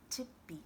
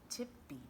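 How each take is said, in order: Both takes have the same delivery.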